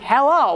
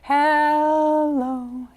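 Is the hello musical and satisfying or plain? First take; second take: plain; musical. First: It is said in a plain, ordinary way. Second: It is phrased in a beautiful, satisfying way.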